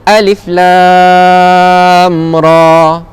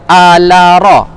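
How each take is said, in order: First: Each letter is pronounced by its full name. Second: The letters are read as short voweled syllables. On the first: The speaker calls it right. "cara yang betul adalah sebut nama huruf tu" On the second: The speaker calls it wrong. "jangan baca ala ra, jangan hidupkan dia, jangan baris ataskan dia"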